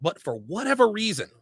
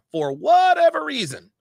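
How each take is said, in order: First: Said in the usual way. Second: "whatever" stretched high and loud, then falling; stress on WHATEVER. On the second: Real, not acted. Commentator baffled by his friend's behavior, heavy stress on "whatever". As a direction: lean hard on "whatever".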